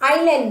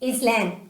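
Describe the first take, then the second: First: The s sound is silent in the word. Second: The s sound is pronounced in the word. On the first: The speaker calls it right. "ஐலேண்ட் தான் நீங்க சொல்லணும்" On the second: The speaker calls it wrong. "இதை நம்ம குழந்தைங்க எப்படி pronounce பண்ணுவாங்கன்னா இஸ்லேண்ட்"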